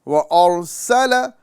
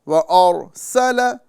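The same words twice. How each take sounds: Both takes have the same delivery.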